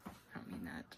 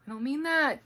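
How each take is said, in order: First: Whispered take-back; whispering. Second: Said in the usual way. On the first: Acted. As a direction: whisper it quickly. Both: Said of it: "That was mean".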